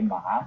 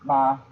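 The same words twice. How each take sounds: First: The syllable is said with a moving pitch. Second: The syllable is said on a level pitch. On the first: It means horse. "that's horse" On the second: It means mother. "first the first tone like a, a flat tone"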